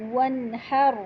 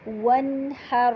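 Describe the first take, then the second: First: Said in the usual way. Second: ونحر with rounded lips on waw, slow. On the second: Shown as a demonstration. (ونحر گول واو سے) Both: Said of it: "واو کو گول کر کے".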